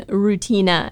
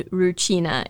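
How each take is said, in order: First: Rutina with a plain t, roo-TEE-na; Rutina, clear t before the long ee; hard t version. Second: Rucina with a ch, roo-CHEE-na; Rucina, ch before the long ee; ch version. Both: Shown as a demonstration. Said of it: "it's almost between Rutina and Rucina".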